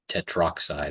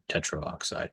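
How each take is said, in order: First: The word is said without the extra vowel. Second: The word is said with an extra vowel sound. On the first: The speaker calls it right. "we dropped the A, so it's just tetroxide" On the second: The speaker calls it wrong. "I actually pronounced that incorrectly the first time"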